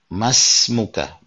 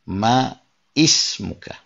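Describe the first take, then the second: First: The words join with the first vowel dropped. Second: The first vowel of ismuka is pronounced separately. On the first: The speaker calls it right. "dia mengatakan masmuka" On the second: The speaker calls it wrong. "bukan ma ismuka"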